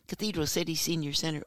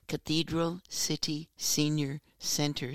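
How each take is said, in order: First: The phrase is said quickly. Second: The phrase is said at a normal pace.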